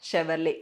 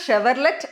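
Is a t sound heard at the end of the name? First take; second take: no; yes. First: No t sound is heard at the end. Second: A t sound is heard at the end. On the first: The speaker calls it right. "ടി അവിടെ silent ആണ്" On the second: The speaker calls it wrong. "അത് ഷെവർലെറ്റ് അല്ല"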